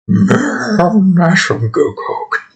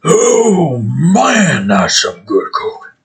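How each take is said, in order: First: A high whinny on "Man", then slow and whimpery; whimpering bear. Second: A high-voiced bear enjoying its coke, dragging the last words. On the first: Acted. A coked-up bear whimpering, whinny-like. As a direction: whimper the words like a horse's whinny. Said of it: "a whimper, like a whinny". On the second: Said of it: "that's what the bear would probably sound like as it does coke".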